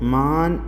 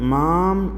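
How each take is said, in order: First: The word ends with a full n sound. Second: The word ends with a full m sound. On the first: "മാം എന്നോ മാൻ എന്നോ നമ്മൾ ഉപയോഗിക്കാതെ" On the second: "മാം എന്നോ മാൻ എന്നോ നമ്മൾ ഉപയോഗിക്കാതെ"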